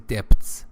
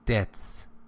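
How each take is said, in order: First: The word is said with a B sound. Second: The word is said without a B sound. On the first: The speaker calls it wrong. "You don't say debts" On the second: The speaker calls it right. "B sound is not pronounced in debts"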